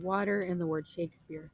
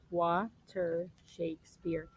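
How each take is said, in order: First: Said in the usual way. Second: "Water, Shakespeare" broken syllable by syllable, with small gaps; split into syllables. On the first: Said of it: "syllables are basically parts of". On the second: Shown as a demonstration. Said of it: "These two parts of the words".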